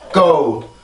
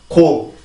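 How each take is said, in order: First: The g is held briefly before release. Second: The g is released immediately without a closure. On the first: "영어는 한번 공기를 막아야 되기 때문에" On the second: "우리나라 말은 그냥 바로 열어주기 때문에"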